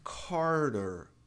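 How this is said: It is said with English pronunciation. It is the English name. "Em inglês"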